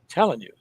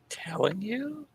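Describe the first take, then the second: First: It is a flat statement, falling at the end. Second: It sounds unsure, rising like a question.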